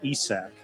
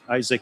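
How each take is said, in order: First: The name is pronounced the Swedish way. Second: The name is pronounced the English way. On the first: This is how the name is said in Sweden. "Isak in Sweden" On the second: This is how the name is said locally. "Isaac here"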